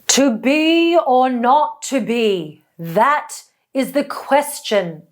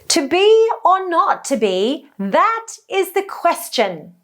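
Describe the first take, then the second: First: The voice sounds dark, deep and open-throated. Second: The voice sounds light, high and childlike. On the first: "a dropped larynx position, a lowered larynx position ... a completely different color" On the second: "with a lifted larynx in high position. ... sort of light and high and even childlike"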